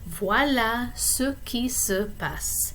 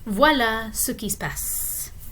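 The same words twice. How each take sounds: First: The sentence is said slowly and carefully. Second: The sentence is said quickly with words run together. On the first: "the slow way" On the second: "the fast way"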